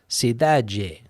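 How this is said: It is said with a Brazilian Portuguese accent.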